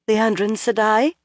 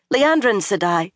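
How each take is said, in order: First: Hesitant, rising uneasy question. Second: Pressing, raised call of her name; urgent. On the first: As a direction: ask it nervously. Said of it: "Egwene asked uneasily". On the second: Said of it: "she said urgently". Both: A narrator's reading.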